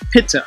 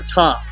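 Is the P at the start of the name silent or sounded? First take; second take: sounded; silent. First: The name starts with a P and a vowel. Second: The name starts without any P sound. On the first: "which was phonetically pronounced pit" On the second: "if you use the silent P"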